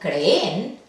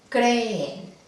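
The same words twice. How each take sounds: First: The stress is on the last syllable. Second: The stress is on the first syllable. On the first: The speaker calls it wrong. "si ponemos el énfasis al final" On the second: The speaker calls it right. "El acento fonético está en la penúltima"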